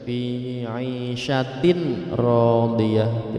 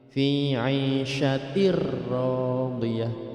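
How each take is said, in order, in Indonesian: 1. Bunyi n dibaca jelas sebelum r. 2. Bunyi n dihilangkan, menyatu dengan r. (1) "Tidak boleh dibaca" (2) "suara mati itu hilang, langsung masuk ke ra"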